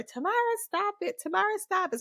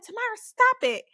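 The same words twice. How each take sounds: First: High, quick mock nagging; nagging older sister. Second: Loud, high imitation of a sister snapping; fed-up older sister. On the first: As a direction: imitate a sister repeating her order, pitched up. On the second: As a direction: imitate a sister at the end of her patience. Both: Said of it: "So then she got fed up".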